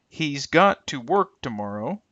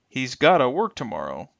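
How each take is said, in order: First: 'Got to' is said fully as two words. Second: 'Got to' is reduced and blended together. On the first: "will become" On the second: "extreme reductions"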